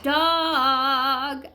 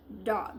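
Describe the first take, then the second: First: "Dog" stretched long and louder; long, held "Dog"; drawn-out model word. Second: Said in the usual way. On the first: Shown as a demonstration. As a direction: stretch the vowel in "Dog" for learners. Teacher models the answer word.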